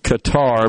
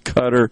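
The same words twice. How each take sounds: First: The name is said the way it is spelled. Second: The name is said differently from its spelling. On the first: The speaker calls it wrong. "I pronounced it Qatar because that's the way it's spelled" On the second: The speaker calls it right. "I know it is pronounced as Qatar"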